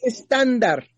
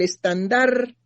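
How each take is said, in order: First: It is pronounced with a Spanish accent. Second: It is pronounced with a French accent. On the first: "no, es estándar" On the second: "cambió el acento y lo puso en francés"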